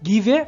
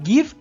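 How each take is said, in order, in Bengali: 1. v এর পরে একটি অতিরিক্ত স্বরধ্বনি উচ্চারিত হয়। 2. শব্দটি v দিয়ে শেষ হয়, কোনো স্বরধ্বনি ছাড়া। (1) "উচ্চারণে যদি এই ই এর কাজ থাকতো তাহলে উচ্চারণটা হতো গিভে" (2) "উচ্চারণ হয় গিভ"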